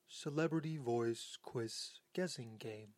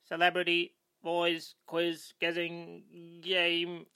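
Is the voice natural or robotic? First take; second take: robotic; natural. First: It is said in a robotic artificial voice. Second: It is said in a natural human voice.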